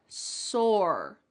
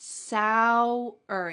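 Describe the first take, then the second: First: "sore" as a single syllable, no glide; one-syllable sore. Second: "Sour" like sow-wer, a W glide in the middle; two-beat sour. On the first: Teacher contrasting one-syllable "sore" with sour. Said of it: "It's just one syllable". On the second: Teacher showing the W glide inside "Sour". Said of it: "there's a W in the middle". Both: Shown as a demonstration.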